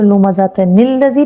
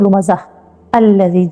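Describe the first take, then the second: First: The words are linked with an added n sound. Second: The first word ends and the next starts separately. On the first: "अगर हम इसको मिला के पढ़ेंगे" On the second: "अगर हम नहीं मिला के पढ़ेंगे"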